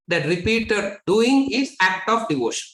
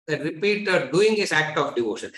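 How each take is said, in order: First: Lifted higher, with "doing" stressed; teacher drives the point home on "doing"; emphatic statement. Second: Said in the usual way. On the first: Shown as a demonstration. Teacher to students, the first and raised take, "doing" stressed.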